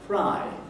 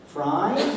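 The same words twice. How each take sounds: First: The pitch starts high and falls. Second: The pitch rises on the word. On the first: The speaker calls it right. "say it with a high fall" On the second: The speaker calls it wrong. "No, that's wrong, isn't it? That's a right"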